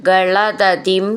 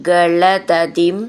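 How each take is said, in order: The two takes are said the same way.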